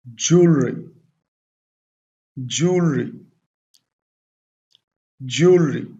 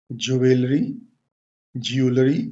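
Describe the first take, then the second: First: ज्वेलरी as two syllables, "JOOL-ree"; correct pronunciation. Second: Extra syllable in ज्वेलरी, rising at the end; wrong pronunciation. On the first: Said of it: "इसकी pronunciation क्या होगी?". (ज्वेलरी का सही उच्चारण, "जूलरी") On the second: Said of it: "सही तरीका नहीं है". (ज्वेलरी का ग़लत उच्चारण, "जुवेलरी, ज्यूलरी") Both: Shown as a demonstration.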